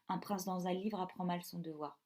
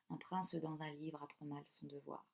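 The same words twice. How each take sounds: First: The final E of prince is silent. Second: The final E of prince is pronounced. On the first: The speaker calls it wrong. "sinon ce ne serait pas mélodieux, ça ferait" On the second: The speaker calls it right. "Ça ne sonne pas aussi bien que si on dit"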